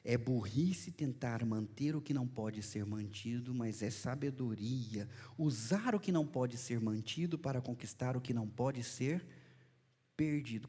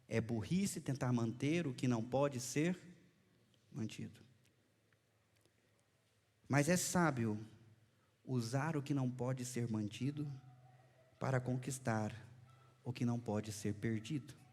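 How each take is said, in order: First: It is said in one go without pauses. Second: It is said with dramatic pauses between phrases.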